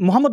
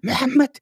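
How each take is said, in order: First: The name is said in a plain Bengali style. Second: The name is said in a heavy Arabic style. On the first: This is the ordinary local way of saying it. The speaker calls it wrong. "আপনি মোহাম্মদ বলতেছেন" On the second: This shows off knowledge of Arabic. The speaker calls it right. "মেহেম্মেদ এরকম বলতে হবে। মানে খুব আরবি।"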